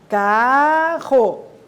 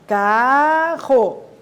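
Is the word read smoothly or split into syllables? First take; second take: split; split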